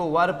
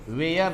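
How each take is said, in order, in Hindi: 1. स्वर की आवाज़ 'fur' वाले स्वर जैसी है। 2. स्वर की आवाज़ 'air' वाले स्वर जैसी है। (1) "इसको वर पढ़ेंगे" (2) "वेयर नहीं पढ़ेंगे"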